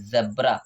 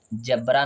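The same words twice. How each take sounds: First: जेब्रा with a buzzing z as in zoo; correct z sound. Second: जेब्रा with a hard English j as in jam; wrong hard j. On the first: Teacher giving students the right जेब्रा with a z sound. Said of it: "नीचे बिंदी लगी होती है". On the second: Teacher showing students the wrong जेब्रा with a j sound. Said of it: "जेब्रा नहीं जेब्रा". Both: Shown as a demonstration.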